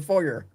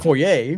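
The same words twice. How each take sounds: First: The word is said with an American pronunciation. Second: The word is said with a Canadian pronunciation. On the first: "the people call it a foyer in the U S" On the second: "it's a foyer"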